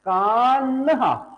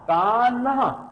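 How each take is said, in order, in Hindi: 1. n और h मिलकर एक साँस वाली ध्वनि बनाते हैं। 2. n और h मिलकर एक साँस वाली ध्वनि बनाते हैं।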